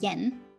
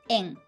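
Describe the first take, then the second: First: The word begins with a y sound. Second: The word begins directly with a vowel. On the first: The speaker calls it wrong. "like Y sound" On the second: The speaker calls it right. "without Y sound"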